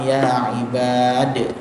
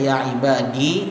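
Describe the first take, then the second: First: The word ends without a final vowel. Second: The word ends with a final i vowel. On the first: The speaker calls it right. "tapi dibaca dengan ya ibad" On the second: The speaker calls it wrong. "tidak dibaca ya ibadi"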